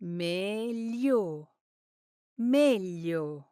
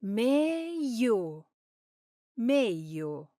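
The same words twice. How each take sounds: First: "Meglio." with full gli sound; standard Italian. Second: "Meglio." as Roman "meio", no gli; Roman-style "Meglio.", gli dropped to i; roman accent. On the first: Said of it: "the correct pronunciation is?". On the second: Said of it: "if you spend time in Rome, you'll often hear". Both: Shown as a demonstration.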